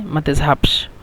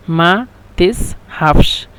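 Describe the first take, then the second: First: মা তাযহাবশ said as one joined word, softer; run together. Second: মা তাযহাবশ drawn out slowly, each sound clear; slow demo. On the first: Teacher showing the phrase run together as one word. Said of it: "একসাথে মা তাযহাবশ". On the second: Teacher modelling the Egyptian phrase to students, slow and clear. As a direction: spell out মা তাযহাবশ slowly for learners. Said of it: "একসাথে ওরা বলে মা তাযহাবশ". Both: Shown as a demonstration.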